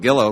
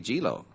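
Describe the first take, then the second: First: The name begins with a hard G sound. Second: The name begins with a soft J-like G. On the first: "we'll go with Gillo if you say so" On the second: "soft G. That would be Gilo"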